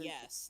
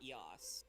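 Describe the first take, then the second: First: The vowel is the normal 'e' of yes. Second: The vowel is an open 'a' sound. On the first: The speaker calls it right. "They say just yes" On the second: The speaker calls it wrong. "not yas"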